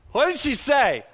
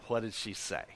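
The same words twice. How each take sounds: First: High, loud demand to the crowd; insistent question. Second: Low, soft question to the crowd. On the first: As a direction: call it out louder, pitched up. Preacher repeats question, building up. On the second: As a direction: ask it quietly, pitched down. Preacher's first, low asking. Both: Real, not acted.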